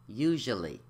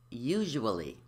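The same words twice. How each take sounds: First: One syllable is left out. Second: Every syllable is pronounced.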